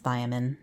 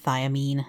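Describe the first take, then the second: First: The second 'i' sound is light and unemphasized. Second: The second 'i' sound is strongly emphasized. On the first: "I've always heard it as" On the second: "land real hard on that second I"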